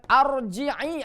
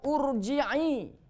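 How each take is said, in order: First: The word begins with an a vowel. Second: The word begins with an u vowel.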